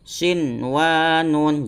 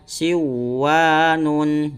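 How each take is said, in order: First: The n sound is pronounced clearly. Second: The n sound is dropped and merged. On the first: The speaker calls it right. "Cara membacanya sinwanun" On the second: The speaker calls it wrong. "Jangan sampai dibaca siwanun"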